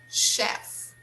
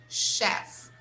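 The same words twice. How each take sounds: No difference in how they are said.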